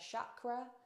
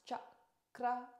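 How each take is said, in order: First: The word starts with an 'sh' sound. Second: The word starts with a 'ch' sound. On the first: The speaker calls it wrong. "as opposed to chakra" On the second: The speaker calls it right. "It's pronounced chakra"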